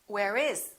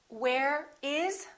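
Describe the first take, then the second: First: The two words run together, linked. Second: The two words are said separately.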